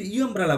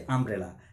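First: ইউ আমব্রেলা with a yoo sound before the word; wrong yoo sound. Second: Said in the usual way. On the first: Shown as a demonstration. Teacher showing students the wrong way with a yoo sound. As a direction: say ইউ আমব্রেলা as if it starts with a yoo glide. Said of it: "আমি কিন্তু ইউ আমব্রেলা বলছি না". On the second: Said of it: "আমি বলছি আমব্রেলা".

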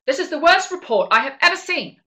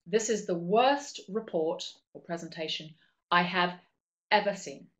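First: Loud, high, furious boss snapping at an employee; angry boss voice. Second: Said in the usual way. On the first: Shown as a demonstration. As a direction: bellow it like an enraged boss. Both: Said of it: "let me do it with a proper voice".

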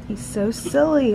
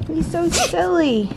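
First: Said in the usual way. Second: Higher and slower, cooing. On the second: Real, not acted. Mom cooing higher and slower at her silly baby. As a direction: coo it up high and slow.

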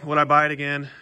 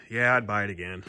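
First: "would I buy it again?" asked to himself, lifting on "buy"; rhetorical question. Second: "Yeah, I'd buy it again." settled lower and softer, landing on "Yeah"; plain answer. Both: Real, not acted.

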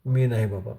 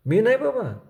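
First: Said in the usual way. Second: High, louder pleading refusal stressing नाही; squirming boy's anxious high plea; fidgety refusal. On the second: A narrator's reading. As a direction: push नाही up high, begging to be let off. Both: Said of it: "चुळबुळ करीत बाळ्या म्हणाला".

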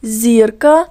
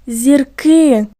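First: "Зірка" with the stress on ЗІР; stress on first syllable. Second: "зірки" with the stress on КИ; stress on last syllable. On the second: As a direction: demonstrate "зірки" stressed on the final syllable, falling. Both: Shown as a demonstration. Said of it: "наголос теж змінився".

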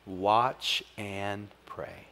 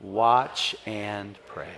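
First: Each word drawn out very slowly, "Watch" leaning in; slow refrain. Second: Drawn out very slowly, "Watch" weighted; leading the congregation's response; slow refrain. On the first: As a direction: lead the congregation in the call. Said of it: "Everybody say it with me". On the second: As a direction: call it back with the church. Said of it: "say it with me". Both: Shown as a demonstration.

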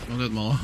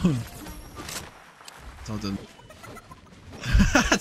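First: Said in the usual way. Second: Breathy laugh through the words. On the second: Real, not acted. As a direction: say it while cracking up. Repeats the line while laughing.

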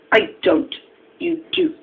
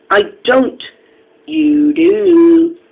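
First: Said in the usual way. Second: Loud, high back-and-forth retort; escalating squabble. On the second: A narrator's reading. Engines quarrelling over telling tales, loud and high squabble. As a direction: raise pitch and volume, dragging out the comeback.

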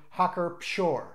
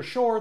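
First: Pschorr with the P sounded before the sh; German Pschorr, opening on p-sh; P pronounced in Pschorr. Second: Schorr starting straight on sh; P left silent. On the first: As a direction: say Pschorr with an audible P. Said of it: "P's are pronounced in German". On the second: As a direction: say Schorr with no P sound. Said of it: "that is an incorrect pronunciation". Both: Shown as a demonstration.

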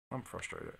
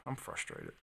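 First: Soft, deflated I'm frustrated; softer spoken frustration; quiet frustration. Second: Very low, quiet groaned frustration; much lower, defeated I'm frustrated; mock frustration. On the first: Pretend. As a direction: let it sag out. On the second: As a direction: drop into a deep grumble.

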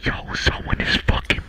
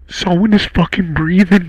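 First: Hushed unvoiced whisper, barely audible. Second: Said in the usual way. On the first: Real, not acted. Streamer hearing breathing whispers to chat, hushed. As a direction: whisper so the thing breathing can't hear. Hears breathing in horror game.

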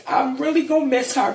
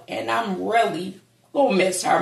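First: High, fast, tearful; real crying, high and fast; voice breaking. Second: Said in the usual way. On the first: Real, not acted. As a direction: choke it out through tears. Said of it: "I'm trying not to cry".

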